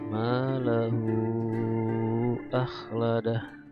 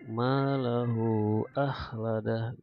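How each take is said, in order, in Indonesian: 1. Vokal setelah 'h' dibaca panjang. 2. Vokal setelah 'h' dibaca pendek. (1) "boleh panjang" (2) "boleh juga pendek, dua harokat aja"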